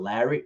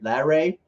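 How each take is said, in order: First: The name is said like the common name Larry. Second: The name ends with a long 'ray' sound. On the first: The speaker calls it wrong. "It's not Larry" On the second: The speaker calls it right. "I hope I'm saying that right"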